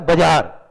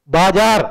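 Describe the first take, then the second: First: बाजार with the first vowel cut short, "ba-jaar"; shortened बाजार. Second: बाजार with a long, full first "baa"; बाजार full vowels. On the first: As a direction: clip बाजार to bajaar, short first syllable. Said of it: "हमें जोर देना पड़ता है तो बाजार". (बाजार छोटे "ब" के साथ, "बजार") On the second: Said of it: "बाजार बोलने में ताकत लगती है". (बाजार पूरा लंबा "बा" बोलकर) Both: Shown as a demonstration.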